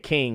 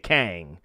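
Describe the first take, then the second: First: The vowel is a short 'i' as in 'kin'. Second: The vowel is a broad 'a' as in 'can'. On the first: "We we don't say King" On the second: "We say Kang. At least in the South"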